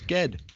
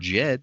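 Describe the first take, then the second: First: The name starts with a hard G sound. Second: The name starts with a soft J sound. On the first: The speaker calls it right. "It starts with a G. It's Ged" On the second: The speaker calls it wrong. "I'm not calling him"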